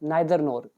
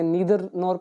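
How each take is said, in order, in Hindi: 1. Neither की शुरुआत 'eye' स्वर ध्वनि से होती है। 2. Neither की शुरुआत 'ee' स्वर ध्वनि से होती है। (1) "but I read it as नाइदर नोर, जो कि सही प्रोनाउंसिएशन भी है" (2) "कई लोग इसे नीदर नोर पढ़ते हैं"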